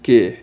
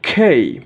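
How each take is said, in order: First: The k has no puff of air. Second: The k has a strong puff of air. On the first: The speaker calls it wrong. "এটা আমরা সাধারণত উচ্চারণ করি কে" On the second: The speaker calls it right. "সঠিক উচ্চারণ হবে খেই"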